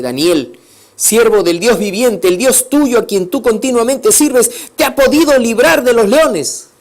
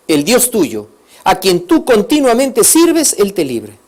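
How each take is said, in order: First: Loud, higher, urgent questioning; anxious loud call. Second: Raised, slow, stretched plea; king's loud blessing. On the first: Grieving king asks Daniel if God saved him, loud and anxious. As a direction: plead down into the den for an answer. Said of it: "Yo me imagino su voz estaba triste". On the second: King blesses Daniel before the lions' den, loud and pleading. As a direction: call it out like a worried king. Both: Acted.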